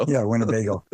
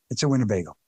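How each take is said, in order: First: Winnebago in a Chicago accent. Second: It's a Winnebago in a light Chicago accent; a hint of Chicago accent on Winnebago. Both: Shown as a demonstration. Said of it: "In my Chicago accent".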